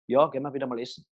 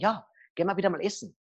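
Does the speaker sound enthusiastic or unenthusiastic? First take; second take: unenthusiastic; enthusiastic. First: It is said flatly, without enthusiasm. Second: It is said with lively enthusiasm.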